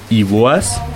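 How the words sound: The second word has an oa vowel. This is how Bavarian speakers say it. "Im Bayerischen wird aus EI OA"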